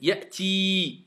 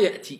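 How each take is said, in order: First: The final vowel is long and drawn out. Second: The final vowel is short and clipped. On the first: The speaker calls it right. "C'est une voyelle longue" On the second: The speaker calls it wrong. "C'est pas ya'ti"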